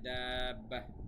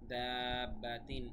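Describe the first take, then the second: First: The word ends with an 'h' sound. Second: The word ends with a 'tin' sound. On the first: The reading stops at this word. "আর যদি থেমে যাই তাহলে দাব্বাহ বলবো।" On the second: The reading continues into the next word. "আর যদি না থেমে পরের সাথে বলি তাহলে দাব্বাহ হবে না, দাব্বাতিন হাজুকা এভাবে হবে।"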